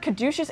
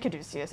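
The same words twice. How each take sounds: First: Caduceus pronounced ka-DOO-shus. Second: Caduceus pronounced ka-DOO-see-us. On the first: Listing pronunciations heard, Caduceus as ka-DOO-shus. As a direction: say Caduceus with a sh, three syllables. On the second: Listing pronunciations heard, Caduceus as ka-DOO-see-us. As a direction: say Caduceus with an s, four syllables. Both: Shown as a demonstration. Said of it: "I've heard Caduceus and Caduceus".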